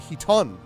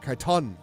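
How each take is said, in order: First: The word begins with an h sound. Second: The word begins with a k sound. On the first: The speaker calls it right. "Oh, it is a he" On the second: The speaker calls it wrong. "not a K"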